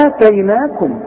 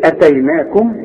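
First: آتيناكم with the first aa held long; long opening aa. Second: اتيناكم with a short, unstretched first a; short hamza. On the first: Teacher contrasting two words, long first vowel in آتيناكم. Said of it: "ده مختلفة خالص". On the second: Teacher contrasting two words, short first vowel in اتيناكم. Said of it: "اظن في فرق شاسع جدا". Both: Shown as a demonstration.

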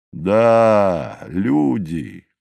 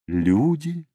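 First: Falling, settled «люди»; «Да» drawn out, then «люди» coming down; confirming answer. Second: «Люди» as a high, rising question; short, higher-pitched query on «Люди». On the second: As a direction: lift «Люди» sharply into a question. One mountain questions, other confirms. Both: A narrator's reading.

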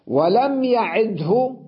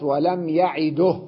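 First: يعده slowly as ya'id-hu; higher, still د and voiced hu in يعده; original full form. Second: يعده slowly as ya'iduh; u on the د of يعده, stop on h; pause with vowel transfer. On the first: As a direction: say يعده with u after the ه. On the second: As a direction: end يعده in du plus breathed ه. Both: Shown as a demonstration. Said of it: "صارت".

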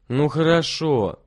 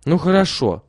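First: Slow, menacing okay; spiteful. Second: Higher, louder reluctant yes; girl agrees. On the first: Volodya threatens his sister, slow and spiteful. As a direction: say it through spite, slowly. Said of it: "злобно сказал Володя". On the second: Lilya agrees to join her brothers, grudgingly. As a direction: give in, a bit grudgingly. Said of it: "отвечала Лиля". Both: A narrator's reading.

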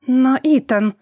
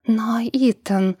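First: Defiant protest, louder; bristling retort. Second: Slow, whispered in dismay; a lost, breathless plea; flustered whisper. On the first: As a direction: snap back, bristling. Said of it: "ощетинилась его давняя знакомая". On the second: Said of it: "растерялась женщина". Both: A narrator's reading.

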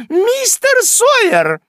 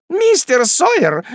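First: Even higher, slower, louder screech; ещё более высокий визг. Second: High, slow shrill shriek up the stairs; визгливый оклик хозяйки. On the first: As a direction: shriek it again, sharper and longer. (визг ещё выше и протяжнее) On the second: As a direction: screech his name from the landing. (протяжный визгливый оклик) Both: Acted. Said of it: "визжал женский голос".

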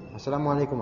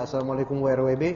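First: Said in the usual way. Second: "Assalamualaikum W R W B" rattled off fast with letters; abbreviated salam. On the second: Shown as a demonstration. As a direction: spell the letters W R W B quickly. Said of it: "Nggak usah pakai W W". (salam disingkat dibaca cepat huruf demi huruf)

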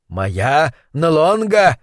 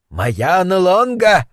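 First: Slow, boastful self-announcement. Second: Slow, higher, assuring self-announcement. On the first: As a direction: brag about your name, slowly. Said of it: "в обычной своей хвастливой манере". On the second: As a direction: insist on the name, slowly. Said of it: "заверил его собеседник". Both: Acted.

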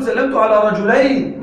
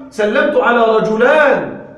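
First: "رجلين" said slowly with the ending -ayn; correct form. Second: "رجلان" said slowly with the ending -ān; wrong form. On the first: Teacher corrects the class with the right form, slow. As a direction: give "سلمت على رجلين" as the correct model, ending -ayn clear. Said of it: "لا، قل". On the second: Teacher shows students the error to avoid, slow. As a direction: present "سلمت على رجلان" as the mistake, ending -ān drawn out. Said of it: "ولا تقل". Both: Shown as a demonstration.

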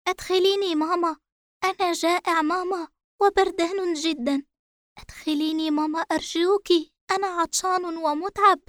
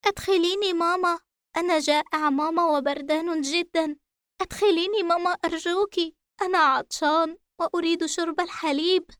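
First: Put-on high, pleading little boy; a scared child begging his mother; frightened child voice. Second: Put-on high, pleading little boy; a scared child begging his mother again; frightened child voice. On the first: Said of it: "يردد بألم شديد وخوف". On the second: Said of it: "عاد الصوت من جديد يردد". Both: A narrator's reading.

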